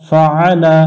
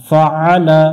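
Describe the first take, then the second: No difference in how they are said.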